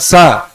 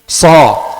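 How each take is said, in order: First: The s sound is light and thin. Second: The s sound is heavy and thick. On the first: The speaker calls it wrong. "bukan sa" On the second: The speaker calls it right. "Itu sa ... Tebalkan sedikit"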